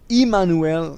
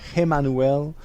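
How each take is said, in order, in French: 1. Le nom commence par la voyelle 'ee'. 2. Le nom commence par la voyelle 'eh'. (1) "ça se dit comme ça, I M M A N N U L, Immanuel" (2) "et non Emmanuel"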